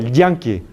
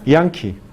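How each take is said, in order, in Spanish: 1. El primer sonido es fuerte, con contacto de la lengua. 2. El primer sonido es suave, sin contacto de la lengua. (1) "No es como yankee"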